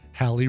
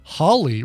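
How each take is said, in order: First: The name rhymes with Valley. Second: The name rhymes with Crawley. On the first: "usually pronounced Halley rhyming with Valley" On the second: "preferred Hawley rhyming with Crawley"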